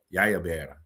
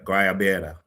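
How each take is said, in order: First: The word begins with a Y sound. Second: The word begins with a hard G sound. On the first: "with a Y" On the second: "I know I'm not saying it right"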